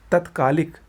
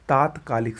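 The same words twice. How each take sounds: First: तत्कालिक with short "tat"; wrong pronunciation. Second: तात्कालिक with long "taat"; correct pronunciation. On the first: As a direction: open तत्कालिक on a clipped first vowel. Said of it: "गलत है". (तत्कालिक में छोटा "तत्") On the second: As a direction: hold the first aa of तात्कालिक. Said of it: "सही होता है". (तात्कालिक में लंबा "तात्") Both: Shown as a demonstration.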